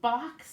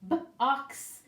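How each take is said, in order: First: The sounds are said fast as one word. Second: The sounds are said slowly, pulled apart.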